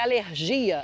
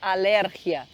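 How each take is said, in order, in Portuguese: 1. A tônica cai na sílaba habitual do português. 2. A tônica cai em outra sílaba. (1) "a alergia aqui" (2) "eles falam com o, a tônica da palavra em, outro, uh, em outra sílaba"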